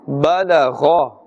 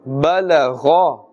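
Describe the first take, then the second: First: The gh sound is thick and full-mouthed. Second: The same.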